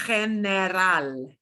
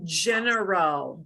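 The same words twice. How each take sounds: First: Slowly, general with a breathy h; Spanish general. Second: General with an English j. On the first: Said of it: "but it is". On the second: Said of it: "we're used to saying general". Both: Shown as a demonstration.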